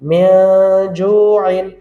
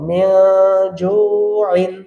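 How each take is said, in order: Both takes have the same delivery.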